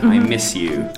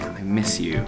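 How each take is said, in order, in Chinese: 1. 这句话用的是正常、中性的语气。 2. 这句话是用悲伤的语气轻声说的。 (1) "you say it normally" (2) "you could say quietly"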